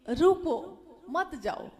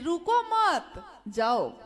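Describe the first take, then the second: First: The pause comes after 'ruko'. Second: The pause comes after 'mat'.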